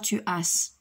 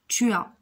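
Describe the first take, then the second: First: The final s of as is sounded. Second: The final s of as is silent. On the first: The speaker calls it wrong. "le S n'est pas prononcé. On ne dit pas" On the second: The speaker calls it right. "le S de A n'est pas prononcé. On dit"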